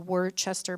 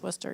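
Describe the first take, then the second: First: Every written syllable of the name is pronounced. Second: The name is said in a shortened form. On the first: "it's actually Worcester" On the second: "but it's pronounced Worcester"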